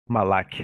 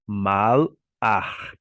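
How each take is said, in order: First: The word ends in a hard k sound. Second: The word ends in a throaty ch sound. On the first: The speaker calls it wrong. "não é malak que se pronuncia" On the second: The speaker calls it right. "A palavra hebraica para anjo é malach"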